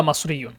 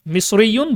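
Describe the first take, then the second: First: মাসরিয়ুন with a in first syllable; regional pronunciation. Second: মিসরিয়ুন with i in first syllable; standard Egyptian nisba. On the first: Teacher giving both variants, regional "mas" pronunciation. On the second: Teacher giving both variants, the "mis" pronunciation. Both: Shown as a demonstration. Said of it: "ওরা হচ্ছে আঞ্চলিকভাবে এটা মাসরি বলে".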